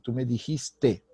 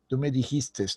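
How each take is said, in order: First: The verb ends without any s sound. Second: The verb ends with an extra s sound. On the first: The speaker calls it right. "es el correcto" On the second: The speaker calls it wrong.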